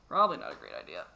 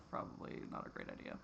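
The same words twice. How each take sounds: First: Much lower and louder, a put-on deep voice; mock deep voice. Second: Soft unvoiced aside to yourself; whispered aside. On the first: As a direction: drop into a deep joking voice. Repeats her answer mockingly. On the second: Real, not acted. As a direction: breathe it out like a private thought. Answering her own question.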